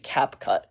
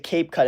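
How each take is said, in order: First: The first syllable rhymes with 'tap'. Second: The first syllable rhymes with 'tape'. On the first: The speaker calls it right. "it's actually Cap Cut" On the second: The speaker calls it wrong. "they pointed out that I say Cape Cut"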